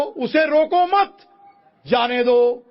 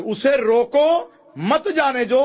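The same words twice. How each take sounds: First: Very high, loud, slow "उसे रोको मत", pause, "जाने दो"; pause after मत. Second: High, loud, slow "उसे रोको", then "मत जाने दो"; break after रोको. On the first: Preacher repeats the let-him-go reading, pause after मत. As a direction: hold मत at the top, break, then जाने दो. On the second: Preacher repeats the stop-him reading, break after रोको. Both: Shown as a demonstration. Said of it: "बिल्कुल विपरीत अर्थ".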